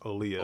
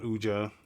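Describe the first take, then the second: First: The J is left silent in the name. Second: The J is sounded in the name. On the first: The speaker calls it right. "It's Olia. ... that's as a silent J" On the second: The speaker calls it wrong. "not Uja"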